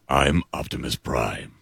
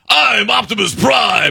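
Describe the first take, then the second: First: It is said in a calm, stoic way. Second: It is said in a bombastic, heroic way.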